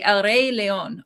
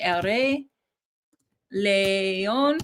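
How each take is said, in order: First: El Rey León said slowly with English vowels, León as "lay-own"; anglicized El Rey León, slow and careful; English-style Spanish. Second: El Rey León in Spanish, León as "le-ON" with a pure e and o; careful Spanish El Rey León, pause before León; proper Spanish. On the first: Trying out the Lion King title in Spanish, first attempt English-style. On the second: Demoing the correct Spanish pronunciation of El Rey León. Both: Shown as a demonstration. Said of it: "Let me try the proper way".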